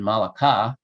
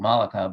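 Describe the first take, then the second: First: The stress is on the last syllable. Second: The stress is on the first syllable. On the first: "which is unlikely, because ... other Semitic languages don't accent the last syllable" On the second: "the stress will go on the first syllable"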